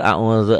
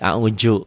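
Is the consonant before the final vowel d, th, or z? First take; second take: th; z. First: The middle consonant is a soft th sound. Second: The middle consonant is a z sound. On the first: The speaker calls it right. "padahal a'udzu zal" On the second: The speaker calls it wrong. "Orang Betawi nanti ke zai"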